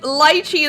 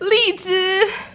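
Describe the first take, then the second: First: The word is said with an English pronunciation. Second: The word is said with a Chinese pronunciation. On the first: "lychee, the English word" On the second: "It's li zhi in Chinese"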